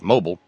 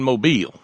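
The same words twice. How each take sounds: First: It is said the common outsider way. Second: It is said the local way. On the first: The speaker calls it wrong. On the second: The speaker calls it right.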